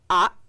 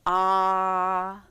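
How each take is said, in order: First: The vowel ends in an abrupt glottal stop. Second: The vowel is drawn out and lengthened. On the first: "now we're going to have an abrupt stop" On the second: "we were able to kind of draw it out"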